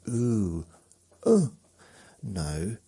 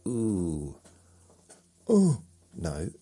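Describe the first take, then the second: No difference in how they are said.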